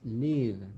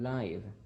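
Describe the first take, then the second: First: The vowel is short, as in 'give'. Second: The vowel is long, as in 'five'. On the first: It is the verb meaning to be alive. The speaker calls it right. "The other word is live" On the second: It means happening in real time. The speaker calls it wrong. "not live"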